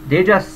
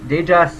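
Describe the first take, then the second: No difference in how they are said.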